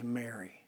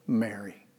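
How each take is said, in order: First: Mary breathed almost silently, very soft and low; a hushed, intimate speaking of her name; whispered tender call. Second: Mary said softly and gently, lower and a little quieter; a soft, loving calling of her name; tender call. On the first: Jesus softly speaking Mary's name at the tomb, hushed and tender. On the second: Jesus gently calling the grieving Mary by name, tender and soft. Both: Acted. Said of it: "She knew by the way he had said the name".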